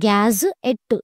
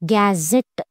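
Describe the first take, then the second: First: The word is split into two separate parts. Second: The word is run together as one unit. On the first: The speaker calls it wrong. "ఇక్కడ మనం గ్యాజ్ ఎట్ అని అనట్లేదు" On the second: The speaker calls it right. "గ్యాజెట్ అని అంటున్నాం"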